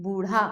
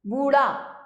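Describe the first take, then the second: First: Said in the usual way. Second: बूढ़ा as booraa, flap without breath; बूढ़ा with unaspirated ड़. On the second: Shown as a demonstration. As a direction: drop the aspiration in बूढ़ा. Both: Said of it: "बूढ़ा नहीं".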